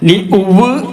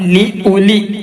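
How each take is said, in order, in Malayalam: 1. u സ്വരം w ശബ്ദത്തിൽ അവസാനിക്കുന്നു. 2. u സ്വരം ഹ്രസ്വമാണ്, w ഇല്ല.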